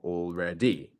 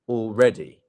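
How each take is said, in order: First: The stress falls away from the middle syllable. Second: The stress falls on the middle syllable. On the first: The speaker calls it wrong. "Not already or already" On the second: The speaker calls it right. "The stress is on the red bit"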